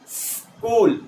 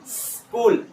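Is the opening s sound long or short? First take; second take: long; long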